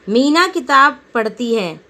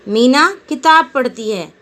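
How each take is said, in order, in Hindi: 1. बल पहले शब्द पर पड़ता है। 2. बल पहले शब्द पर पड़ता है।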